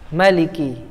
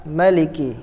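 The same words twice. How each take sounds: Both takes have the same delivery.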